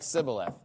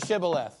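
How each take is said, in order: First: The word begins with a plain s sound. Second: The word begins with an sh sound. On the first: The speaker is exposed as an outsider. The speaker calls it wrong. "if they say it that way, you're just like, bye" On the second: The speaker is a true insider. The speaker calls it right. "say Shibboleth"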